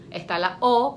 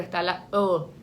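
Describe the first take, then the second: First: Said in the usual way. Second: "O" said as the rounded front vowel ö; umlaut O. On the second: Shown as a demonstration. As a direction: pronounce "O" like German ö, lower in pitch. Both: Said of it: "los dos puntitos de arriba".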